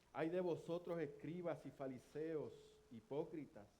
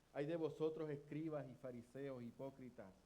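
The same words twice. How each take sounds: No difference in how they are said.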